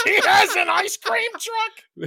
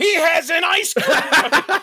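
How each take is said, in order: First: High, slow disbelieving laugh; incredulous laughing. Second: Incredulous shout. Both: Real, not acted. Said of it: "one of my notes in all bold".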